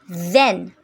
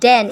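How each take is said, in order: First: It begins with a voiced th sound. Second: It begins with a d sound. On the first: "like then" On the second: "It becomes den in Singlish"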